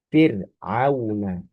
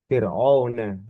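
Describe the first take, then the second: First: The middle vowels stay a clear 'a' plus 'u'. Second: The middle vowels merge into a single 'o' sound. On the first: The speaker calls it right. "Begitu ya" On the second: The speaker calls it wrong.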